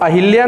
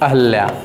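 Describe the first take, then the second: First: The second syllable has an 'i' vowel. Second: The second syllable has an 'a' vowel. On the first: The speaker calls it wrong. "अहिल्या नहीं" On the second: The speaker calls it right. "अहल्या बोलते हैं"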